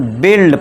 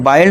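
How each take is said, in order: First: The vowel is a short 'i'. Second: The vowel sounds like 'eye'. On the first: The speaker calls it right. "इसे बिल्ड पढ़ना है" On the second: The speaker calls it wrong. "बाइल्ड नहीं पढ़ना है"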